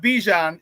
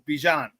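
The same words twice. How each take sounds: First: The name does not sound like Dijon. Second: The name sounds like Dijon. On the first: The speaker calls it wrong. "It's not Bijan" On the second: The speaker calls it right. "it's Bijan... like Dijon mustard"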